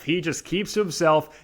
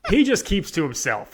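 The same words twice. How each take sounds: First: Said in the usual way. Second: Higher, through a laugh; amused, laugh breaking into the words. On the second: Real, not acted. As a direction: say it while laughing. Amused repeat after breaking into laughter.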